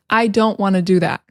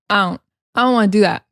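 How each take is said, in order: First: Said in the usual way. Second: Quick "I don't" with no D, run into "wanna"; casual, fast "don't" missing its D; dropped D. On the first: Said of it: "we drop the D". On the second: Shown as a demonstration. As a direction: slur "I don't" together, dropping the D. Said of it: "we drop the D and say".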